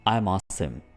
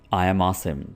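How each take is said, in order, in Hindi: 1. 'I am' को एक syllable में छोटा कर दिया जाता है। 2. 'I am' दो पूरे शब्दों की तरह बोला जाता है।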